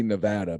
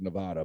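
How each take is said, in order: First: "Nevada" with a short a as in "cat"; supposed pronunciation. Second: "Nevada" with a broad ah in the middle; habitual pronunciation. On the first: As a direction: say "Nevada" as nuh-VAD-uh. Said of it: "I think it's supposed to be". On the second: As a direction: say "Nevada" as nuh-VAH-duh. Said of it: "I've always said Nevada". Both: Shown as a demonstration.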